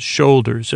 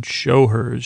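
First: "Shoulders" said as one word, realising the misreading; "Shoulders" as one word, the penny dropping; corrected reading. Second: "Show hers" said as two separate words, show then hers; puzzled reading of "Show hers" as two words; misread as show hers. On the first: Realising the script meant "Shoulders", said as one word. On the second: Misreading the script aloud, "Show hers" as two words. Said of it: "What does that mean?". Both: Real, not acted.

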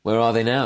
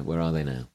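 First: Said in the usual way. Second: "Where are they now?" dropped low and soft; hushed wistful echo; quiet repeat. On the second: Shown as a demonstration. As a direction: muse it softly to yourself.

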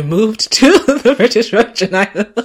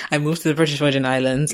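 First: Breaking into loud, high laughter mid-sentence; real laugh bursting through, louder and higher. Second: Said in the usual way. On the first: Real, not acted. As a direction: crack up as you get the words out. Breaks up laughing, then restarts.

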